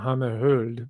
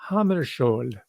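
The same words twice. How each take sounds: First: The name has a Swedish-style pronunciation. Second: The name has an anglicized, conventional pronunciation. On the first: This is the native form. "I understand it's pronounced" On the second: This is the commonly known form. "I'm going to use that pronunciation because it's more commonly known"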